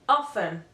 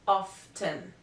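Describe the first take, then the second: First: The T sound is left silent in the word. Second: The T sound is pronounced in the word. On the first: "the letter T is not pronounced" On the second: "this word can be pronounced often"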